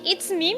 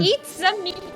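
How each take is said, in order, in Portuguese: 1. É dito de forma simples, sem sotaque italiano. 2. É dito com sotaque italiano. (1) "eu achei que ele falava It's me" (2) "Ele tem o sotaque italiano"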